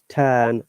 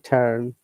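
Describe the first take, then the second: First: The R sound is silent. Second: The R sound is pronounced. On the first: "in British English, turn, R is silent" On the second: "if you pronounce like the American way, it should be turn"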